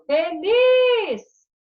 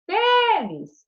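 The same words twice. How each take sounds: First: FELIZ with LIZ loud, high and drawn out; tônica na última sílaba. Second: FELIZ wrongly stressed on a long, punched FE; tônica errada na primeira. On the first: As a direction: lean hard and long on the LIZ of FELIZ. (feliz, com força no LIZ) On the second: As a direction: hit FE hard and let LIZ drop in FELIZ. (feliz, com força no FE) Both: Shown as a demonstration. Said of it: "a tônica é o lis".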